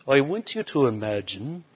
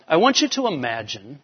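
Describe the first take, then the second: First: Imitating a British preacher, quieter; British accent. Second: Said in the usual way. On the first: Camp speaker addressing his listeners, in a British accent. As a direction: put on a soft British accent. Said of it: "he said it like this, this British accent". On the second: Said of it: "this British accent".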